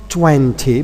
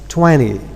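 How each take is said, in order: First: The t after n is clearly pronounced. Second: The t after n is left out. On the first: "it's not twenty" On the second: "but it's twenty"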